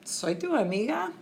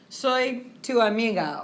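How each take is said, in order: First: It ends with a rising question tune. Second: It ends with a falling statement tune.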